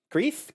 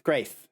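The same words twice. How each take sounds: First: Greeth said with a long ee vowel; Greeth, rhymes with teeth; trying Greeth. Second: Graith said with an ay vowel; Graith, rhymes with faith; trying Graith. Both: Shown as a demonstration.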